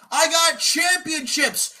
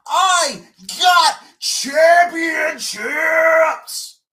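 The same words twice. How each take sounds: First: High, slow mocking yell on "got"; mock shout. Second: Very slow, high, loud yell, "got" stretched long; drawn-out mock bellow. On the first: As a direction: bellow "got" high to mock his boast. Mocking opponent's boast, yelled. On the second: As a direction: stretch "got" into a huge mocking roar. Mocking boast, drawn out.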